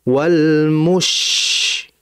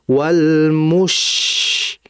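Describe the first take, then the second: No difference in how they are said.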